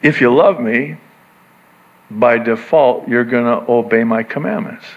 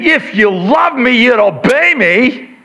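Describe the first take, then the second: First: Lower, calm, love as the reason; Jesus's reading. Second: Mom's misreading. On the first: Preacher reading Jesus's words to the disciples, low and gentle. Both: Shown as a demonstration. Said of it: "He's saying it like this".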